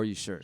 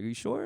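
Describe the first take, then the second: First: The voice falls at the end. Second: The voice rises at the end.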